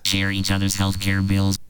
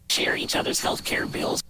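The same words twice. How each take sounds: First: The voice is passed through a vocoder effect. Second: Noise makes the voice sound like a whisper. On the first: "That's vocoder" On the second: "That's a noise. Makes it sound like a whisper"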